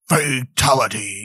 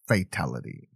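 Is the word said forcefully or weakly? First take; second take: forcefully; weakly. First: The word is said forcefully, with dramatic energy. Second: The word is said weakly, without much force. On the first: The speaker calls it right. "It's not fatality" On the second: The speaker calls it wrong. "He doesn't even say it very good"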